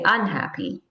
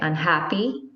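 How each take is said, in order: First: The stress is on the first syllable. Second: The stress is on the second syllable. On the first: The speaker calls it wrong. "You wouldn't say unhappy" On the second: The speaker calls it right. "You say unhappy"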